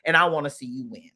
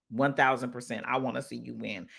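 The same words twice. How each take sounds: First: Said in the usual way. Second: Low, soft, heartfelt promise; sincere reassurance. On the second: Real, not acted. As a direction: lower the voice and mean it. Sincere repeat of her support.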